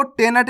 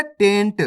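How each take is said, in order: First: टेनट as two syllables, "te-nat"; wrong full न. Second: टेंट as one syllable, "tent"; correct half न. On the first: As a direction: put a vowel after n in टेनट. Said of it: "नहीं पढ़ना". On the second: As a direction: run n straight into the final t of टेंट. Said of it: "इसी तरीके से पढ़ना है". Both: Shown as a demonstration.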